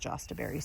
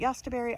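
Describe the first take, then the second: First: The word begins with a J sound. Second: The word begins with a Y sound. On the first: This is the name the speaker has always heard. "I've always heard it as Jostaberry" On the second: This is the name someone else uses. "the woman at the workshop today called it Yostaberry"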